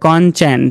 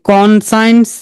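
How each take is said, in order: First: It is said as conshence, with a sh sound. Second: It is said as con plus science. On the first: The speaker calls it right. "তারা এটাকে বলবে কনচেন্স" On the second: The speaker calls it wrong. "No"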